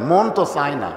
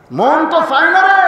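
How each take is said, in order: First: Said in the usual way. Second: Pleading outburst. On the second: Retold or imitated. Father's reluctant plea repeated.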